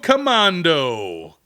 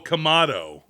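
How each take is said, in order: First: An n sound comes before the d. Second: No n sound comes before the d. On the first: The speaker calls it wrong. "I'm going to mispronounce this horribly" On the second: The speaker calls it right. "I don't see an N"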